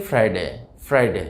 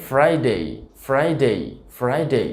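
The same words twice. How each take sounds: First: ফ্রাইডে with short, unglided "de"; common mispronunciation. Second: ফ্রাইডে ending in a gliding "dey"; full ei diphthong closing ফ্রাইডে; correct pronunciation. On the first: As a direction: say ফ্রাইডে as "frai-de". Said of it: "আমরা যেভাবে উচ্চারণ করে থাকি". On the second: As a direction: say ফ্রাইডে as "FRY-day". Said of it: "সঠিক উচ্চারণটা আসলে হবে". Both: Shown as a demonstration.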